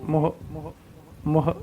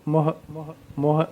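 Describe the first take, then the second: The two takes are said the same way.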